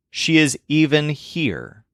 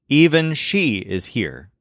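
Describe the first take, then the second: First: "even" stressed in the middle, said slowly. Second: "Even" carries the weight at the start; stress on even. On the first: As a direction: move the weight to "even". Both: Shown as a demonstration. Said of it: "notice the difference between these two sentences".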